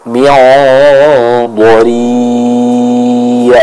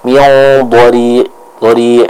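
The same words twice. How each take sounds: First: Dhari' held long, ain flowing. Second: Dhari' with the ain cut short; clipped ain. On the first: Teacher modelling the correct long ain. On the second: Teacher imitating the student's cut ain. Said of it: "Jadi bukan". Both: Shown as a demonstration.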